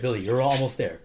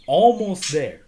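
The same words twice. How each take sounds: First: Said in the usual way. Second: "Almost there" higher and much louder; emphatic repeat. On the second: Retold or imitated. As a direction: punch out "Almost there" in a raised voice. Retold encouragement, repeated with emphasis.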